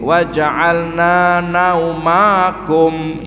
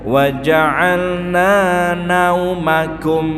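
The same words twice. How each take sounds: First: High pitch, and the syllable is drawn long. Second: Low pitch, and the syllable stays short. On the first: The speaker calls it wrong. "ya jadi jadi panjang" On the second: The speaker calls it right. "Harusnya wa ja'alna naumakum, naumakum, rendah suaranya"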